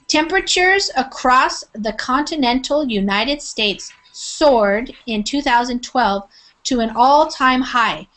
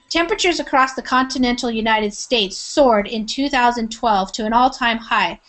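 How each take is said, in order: First: It is read slowly with each word clearly pronounced. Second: It is read quickly at a natural fast pace. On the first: "trying to pronounce the words very uh, clearly" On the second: "Now I'm going to read it uh, quickly"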